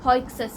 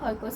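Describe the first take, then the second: First: The name is said with a ks cluster. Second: The name is said with a plain k sound. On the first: The speaker calls it right. "ಹಾಯ್ಕ್ಸಸ್ ಅದು ಆಯಿತಾ" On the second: The speaker calls it wrong. "ನಾನು ಬೇಗ ಬೇಗ ಹೇಳೋ ಟೈಮಿಗೆ ಹಾಯ್ಕೋಸ್ ಅಂತ ಹೇಳ್ಬಿಟ್ಟು"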